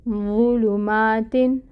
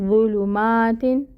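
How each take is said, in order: No difference in how they are said.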